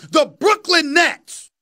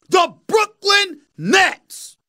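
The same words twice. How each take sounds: First: Slow stress on Brooklyn, Nets stretched; drawn-out stress. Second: Brooklyn drawn out very slowly, pitched higher with a rise; slower higher emphasis. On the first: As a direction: lean on Brooklyn and draw it out. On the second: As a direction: stretch Brooklyn even more and lift it. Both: Real, not acted.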